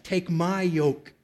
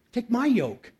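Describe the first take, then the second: First: Slow, gentle reading of Jesus' words; gentle invitation. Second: "my" lifted high and stressed. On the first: Retold or imitated. Pastor quoting Jesus to the congregation, slow and gentle. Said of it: "And what did Jesus say?". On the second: Shown as a demonstration. Pastor repeating Jesus' words, leaning on "my".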